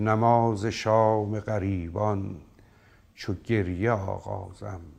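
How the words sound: The line has pauses inside it.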